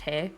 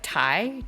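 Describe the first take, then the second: First: The syllable sounds like 'teh'. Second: The syllable sounds like 'tie'. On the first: The speaker calls it right. "instead of Tae" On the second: The speaker calls it wrong. "Like Thai, Thai instead of Tae"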